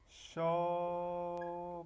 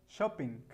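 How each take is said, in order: First: "shopping" with a long held sho, pause, then ping; drawn out in syllables. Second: Said in the usual way. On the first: Shown as a demonstration. Teacher shows how shop becomes gerund, drawn out. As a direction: split "shopping" slowly into two level syllables. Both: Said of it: "Shop quedaría así".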